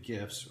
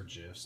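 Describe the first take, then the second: First: GIFS with a hard G, as in gift. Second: GIFS said with a J sound, like jifs; soft G. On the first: Showing viewers one way to say the word, gifs with hard G. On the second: Offering viewers the other way to say it, gifs with soft G. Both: Shown as a demonstration. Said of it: "depending on how you like to say that word".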